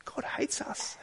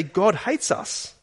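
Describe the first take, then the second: First: A soft, breathy echo of the complaint; hushed mock despair; whispered. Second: A slow, higher, bitter complaint; mock despair of the Israelites; grumbling Israelites. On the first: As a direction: whisper it like hidden self-talk. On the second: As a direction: voice their grumbling in the tents. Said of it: "They say".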